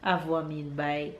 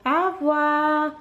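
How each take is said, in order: First: Said in the usual way. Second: Au revoir slow and high in French; modelling au revoir. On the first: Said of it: "explaining to viewers". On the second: Shown as a demonstration. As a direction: draw out Au revoir for the child to copy. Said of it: "modelling French for toddler".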